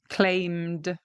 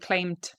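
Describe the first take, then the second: First: The word ends with a d sound. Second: The word ends with a t sound. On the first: The speaker calls it right. "it ends with a D sound" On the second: The speaker calls it wrong. "I'm not saying claimed ... It doesn't end with a T sound"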